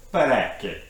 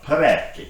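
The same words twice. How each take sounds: First: Parecchi said with a rolled, sing-song Italian accent, stress on the middle. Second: Parecchi with a hard K sound for the "cch", pe-REK-ee, stressed on the middle. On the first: Explaining a species name to viewers in a playful Italian accent. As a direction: put on your best Italian accent for Parecchi. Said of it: "that was my best Italian accent". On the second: Correcting the species name for viewers, hard C on Parecchi. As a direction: land a clear hard K in Parecchi. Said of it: "so it is a hard C". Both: Shown as a demonstration.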